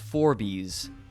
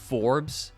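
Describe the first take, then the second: First: It is said as two syllables, like 'four bees'. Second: It is said as one syllable. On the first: The speaker calls it wrong. "I pronounced Forbes ... as Forbies" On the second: The speaker calls it right. "you like the magazine"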